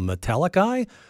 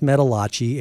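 First: The name ends with a 'ka' sound. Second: The name ends with a 'chee' sound. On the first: The speaker calls it wrong. "And I thought, well, Metallica?" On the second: The speaker calls it right. "No, it's pronounced Metallachi"

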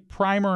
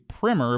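First: The first vowel is a long 'eye' sound. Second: The first vowel is a short 'i' sound. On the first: "they use the long I on primer" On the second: "Americans say primer"

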